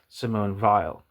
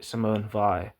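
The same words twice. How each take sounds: First: The surname is given a German pronunciation. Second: The surname is given a French pronunciation. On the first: "it could be a German name ... as in like Felix Weil" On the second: "If you type in Simone Weil in uh, Google Translate uh, for France, she was French. It'll say"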